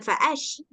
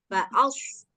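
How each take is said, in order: First: The consonant is an sh sound. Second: The consonant is a thick, heavy s sound. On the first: The speaker calls it wrong. "bukan fa'ash" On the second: The speaker calls it right. "bedanya sod ini tebal"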